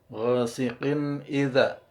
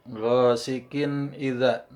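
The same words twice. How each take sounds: No difference in how they are said.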